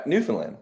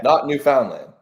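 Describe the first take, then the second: First: "Newfoundland" run together as NEW-fn-land; Newfoundland pronunciation. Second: "Newfoundland" with a full FOUND in the middle; "Newfoundland" with the middle vowel as in "found"; mispronounced Newfoundland. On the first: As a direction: reduce the middle of "Newfoundland" to a quick "fn". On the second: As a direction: say NEW-FOUND-land, sounding out "found". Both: Shown as a demonstration.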